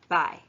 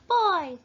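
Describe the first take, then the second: First: It is said in a normal voice. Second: It is said in a high, babyish voice.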